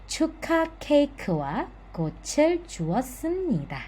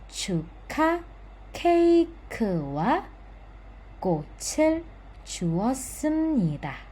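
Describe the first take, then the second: First: The sentence is read quickly. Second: The sentence is read slowly. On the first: "sekarang yang lebih cepat ya" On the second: "secara pelan-pelan saya baca secara lengkap terlebih dahulu"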